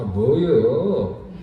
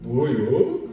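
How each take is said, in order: First: It is said in an irritated, annoyed tone. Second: It is said in a surprised, pleased tone. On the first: The speaker is irritated by something. "짜증이 나잖아요. 아" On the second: The speaker is pleasantly surprised by a big gift. "갑자기 뭐 선물 이만큼 안겨주는 거"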